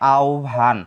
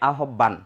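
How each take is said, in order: First: The word is said in its standard spoken form. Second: Each written letter is sounded out as spelled. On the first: The speaker calls it right. "প্রমিত উচ্চারণ হবে আহ্বান" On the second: The speaker calls it wrong. "যদি বানান অনুযায়ী উচ্চারণ করি তাহলে উচ্চারণ হবে আহ্বান"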